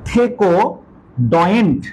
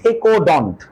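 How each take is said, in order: First: The ending sounds like 'doyent'. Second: The ending sounds like 'dont'. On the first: "ডয়েন্ট বা ডন্টও বলতে পারো" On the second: "ডন্টও বলতে পারো"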